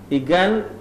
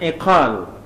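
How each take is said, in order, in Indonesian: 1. Konsonan tengah adalah bunyi g keras. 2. Konsonan tengah adalah bunyi k dalam.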